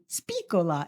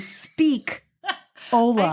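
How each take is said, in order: First: It is said as one word, 'Spicola'. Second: It is said as two parts, 'Speak-Ola'. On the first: The speaker calls it wrong. "which is why it would not be Spicola" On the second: The speaker calls it right. "It would be Speak. Ola"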